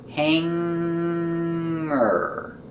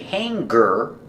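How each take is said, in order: First: Only a nasal sound, with no hard g. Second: A hard g follows the nasal sound. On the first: The speaker calls it right. "We pronounce it hanger with a sound in our nose" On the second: The speaker calls it wrong. "We don't say hanger. We don't make a hard g sound for the G"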